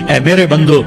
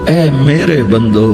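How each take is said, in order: First: It is said in a plain, neutral tone. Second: It is said in a warm, tender tone. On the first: The speaker calls it wrong. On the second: The speaker calls it right.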